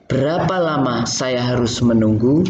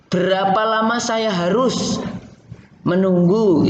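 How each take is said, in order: First: The sentence is broken at natural phrase boundaries. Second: The sentence is broken at an awkward point. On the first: The speaker calls it right. "kamu harus bisa memenggal kalimat secara benar" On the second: The speaker calls it wrong. "itu kan nggak cocok"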